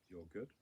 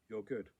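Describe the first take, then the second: First: It is said at a softer speaking volume. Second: It is said at full speaking volume. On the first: "I say it a bit quieter" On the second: "I say out loud"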